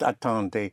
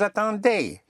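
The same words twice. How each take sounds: First: The final syllable is weak and barely heard. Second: The final syllable is clearly and strongly stressed. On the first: The speaker calls it wrong. "Not attendez. You have to hit the ending" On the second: The speaker calls it right. "Right, vous attendez"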